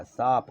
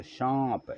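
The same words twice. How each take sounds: First: सांप said as plain saap; सांप with an oral long aa; without nasal. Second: सांप with a long nasalised aa; nasal vowel. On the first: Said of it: "ऊपर चांद बिंदी लगा दें". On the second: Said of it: "ऊपर चांद बिंदी लगा दें तो". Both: Shown as a demonstration.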